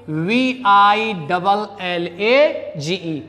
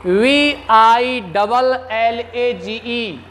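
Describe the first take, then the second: First: Slow, deliberate letter by letter; teacher repeating the spelling slowly. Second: Letter by letter, slowly, for students; teacher dictating the spelling slowly. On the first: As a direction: spell it slowly so students follow. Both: Shown as a demonstration. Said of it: "spelling out the word".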